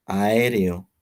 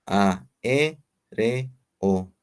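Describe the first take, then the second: First: Said in the usual way. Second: AÉREO slowly split as A, E, RE, O; slow teacher's syllable breakdown. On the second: Shown as a demonstration. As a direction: separate each syllable with a clear pause. Same word split into syllables.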